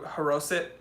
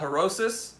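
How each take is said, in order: First: The word ends with a t sound. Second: The word ends with an s sound. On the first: This is how it is said in Hebrew. "depending on how you pronounce it in Hebrew" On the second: This is how the speaker's family says it. "something that we call harosis"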